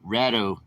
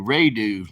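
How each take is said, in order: First: The first vowel is a short 'a' sound. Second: The first vowel is a long 'ay' sound. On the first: The speaker calls it right. "It's Rat Rado" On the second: The speaker calls it wrong. "The long A would be Radu, like I always said"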